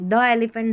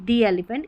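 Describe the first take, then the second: First: 'The' is said with a short uh vowel. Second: 'The' is said with a long ee vowel. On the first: The speaker calls it wrong. "द elephant नहीं" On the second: The speaker calls it right. "ई वाली ध्वनि आती तो दी elephant बोलते"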